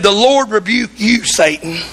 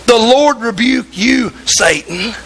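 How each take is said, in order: First: A half-sung, solemn rebuke of Satan. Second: Slower, drawn-out rebuke of Satan. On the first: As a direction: intone it like a holy command, lightly sung. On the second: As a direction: lean on each word, taking your time. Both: Retold or imitated. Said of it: "He said".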